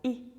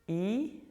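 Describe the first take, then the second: First: The vowel is cut short. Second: The vowel is held long.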